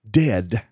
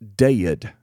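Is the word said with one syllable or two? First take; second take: one; two. First: It is said plainly, in one syllable. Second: It is drawled Texas-style into two syllables.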